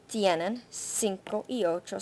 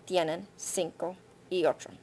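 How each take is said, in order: Both takes have the same delivery.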